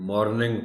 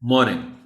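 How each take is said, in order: First: The r sound is clearly pronounced. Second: The r sound is left silent. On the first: The speaker calls it wrong. "आर इसमें silent रखना है, ये ना हो कि बच्चा कोई मॉर्निंग पढ़ दे" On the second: The speaker calls it right. "आर इसमें साइलेंट रखना है"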